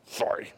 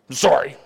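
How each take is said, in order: First: Put-on a sulky child's barely whispered sorry. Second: Put-on a child's grudging, lower sorry; mumbled sorry. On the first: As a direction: breathe the word out with no voice, reluctant. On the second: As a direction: drop the pitch, say it like a chore. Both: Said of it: "maybe it's more like this".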